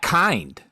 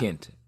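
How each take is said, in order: First: The name ends with a clear D sound. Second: The name ends with a T, no D sound. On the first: The speaker calls it wrong. "you think he's Matt Kind, but he's not" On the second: The speaker calls it right. "He's Matt Kint"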